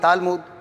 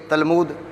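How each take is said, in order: First: The first vowel is drawn out long. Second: The first vowel is kept short. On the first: "ते और लाम के बीच अलिफ लाएं, ये भी सही है" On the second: "अलिफ बीच में ना लाएं ते और लाम के, ये भी सही है"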